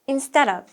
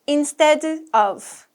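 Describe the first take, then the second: First: The two words blend together into one unit. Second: The two words are said separately, not linked. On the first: The speaker calls it right. "of is a function word. That means it blends together" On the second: The speaker calls it wrong. "We don't say instead of"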